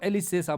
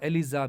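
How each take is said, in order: First: The middle consonant is an s sound. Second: The middle consonant is a z sound. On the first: "इसको एलिसेसा बोलते हैं" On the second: "एस की साउंड जो है वो जड़ से निकलती है, ज साउंड वहां पे निकलती है"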